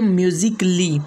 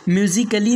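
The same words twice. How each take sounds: First: No vowel is sounded before the ending. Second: An extra vowel is sounded before the ending. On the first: The speaker calls it right. "बल्कि" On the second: The speaker calls it wrong. "नहीं"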